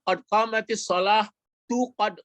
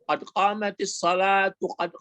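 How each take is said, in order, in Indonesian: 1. Shalah berhenti di h, lalu tu ditambahkan. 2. Shalatu mengalir sebagai satu kata tanpa jeda. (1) "Itu itu gawat" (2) "itu betul tuh"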